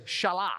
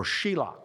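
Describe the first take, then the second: First: Shelah as "sha-LAH", ending on open ah; one pronunciation. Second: Shelah as "SHE-lah", long ee first; alternative pronunciation. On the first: Preacher naming the third son, Shelah said "sha-LAH". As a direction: say Shelah with a short first vowel, "sha-LAH". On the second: Preacher offering another reading of the name, Shelah said "SHE-lah". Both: Shown as a demonstration. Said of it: "however you pronounce his name".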